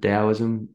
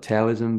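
First: The word begins with a D sound. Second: The word begins with a T sound. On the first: "they pronounce it Taoism with a D" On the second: "which is spelled with a T, like Taoism"

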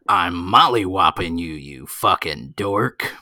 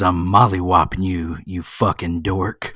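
First: It is said in a sports announcer voice. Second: It is said in an ordinary speaking voice.

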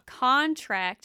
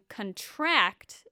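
First: The stress is on the first syllable. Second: The stress is on the last syllable. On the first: The word is a noun. "Contract is a noun" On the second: The word is a verb. "And contract is a verb"

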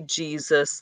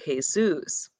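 First: The name is said with English sounds. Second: The name is said with Spanish sounds. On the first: This is how English speakers say the name. "they don't say Jesus" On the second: This is how Latin and Mexican cultures say the name. "they would say Jesus. So there is a difference in the pronunciation"

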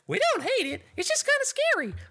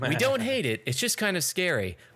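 First: It is said in a King Mickey impression. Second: It is read in the speaker's normal voice.

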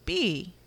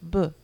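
First: It is said as the full letter name. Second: It is said as a short consonant sound. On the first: The speaker calls it wrong. "Instead of saying B" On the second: The speaker calls it right. "You do more the sound like B"

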